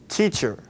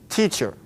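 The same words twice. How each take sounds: First: It begins with a clear t sound. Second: The same.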